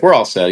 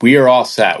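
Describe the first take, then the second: First: Said in the usual way. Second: "We are all set" with each word separate, higher; emphatic refusal. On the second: Retold or imitated. Hikers refusing a pushy hostel man, firm stress on "We are all set". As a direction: spell out "We are all set" firmly, no contraction.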